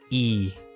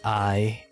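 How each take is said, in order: First: The vowel sounds like 'ee'. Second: The vowel sounds like 'eye'. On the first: The speaker calls it right. "It's E" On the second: The speaker calls it wrong. "It's not pronounced I"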